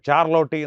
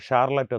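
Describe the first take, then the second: First: It is read letter by letter, Malayalam-style. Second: It is said with a native English pronunciation. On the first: It reflects someone who knows only Malayalam. "Malayalam മാത്രം അറിയാവുന്ന ഒരാൾ spelling നോക്കി വായിക്കുന്ന" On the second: It reflects training in diction and accent. "ഷാർലറ്റ് എന്നും"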